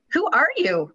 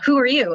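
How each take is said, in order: First: It is said in a silly, put-on voice. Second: It is said in a normal, serious voice. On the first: The critical thought is ridiculed. "And then change the tone to" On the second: The critical thought as it normally sounds. "change the tone of the thought and say"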